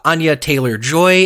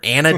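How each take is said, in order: First: The first name is said as Anya. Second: The first name is said as Anna. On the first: The speaker calls it right. "I said it right this time" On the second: The speaker calls it wrong. "I called her Anna Taylor Joy multiple times"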